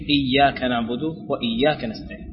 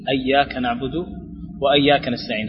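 First: The first word begins with an i vowel. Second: The first word begins with an a vowel. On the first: The speaker calls it right. "الصحيح" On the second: The speaker calls it wrong. "أنت تقول ... هذا خطأ"

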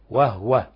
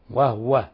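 Both takes have the same delivery.

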